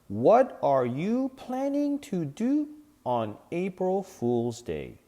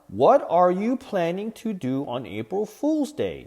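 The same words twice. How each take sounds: First: It is said at a normal pace. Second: It is said a little faster.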